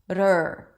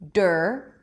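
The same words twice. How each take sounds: First: It begins with a quick tongue-tap flap sound. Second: It begins with a full, firm D sound. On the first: "making it like the flap T" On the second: "you can start with a D"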